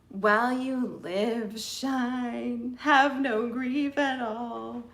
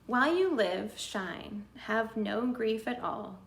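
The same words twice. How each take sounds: First: It is read in a sad, depressed tone. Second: It is read in a neutral, untroubled tone.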